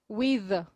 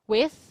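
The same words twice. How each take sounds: First: The final th sound is voiced. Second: The final th sound is voiceless.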